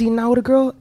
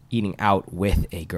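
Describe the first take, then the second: First: The phrase is spoken quickly. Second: The phrase is spoken slowly. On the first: The speaker calls it wrong. "I said that really fast" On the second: The speaker calls it right. "I was trying to slow it down"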